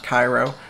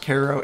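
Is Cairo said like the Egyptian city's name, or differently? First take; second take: like Egypt's; differently. First: It is said like the Egyptian city's name. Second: It is said unlike the Egyptian city's name. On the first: The speaker calls it wrong. "and not Cairo" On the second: The speaker calls it right. "I'm pretty sure it's pronounced Cairo"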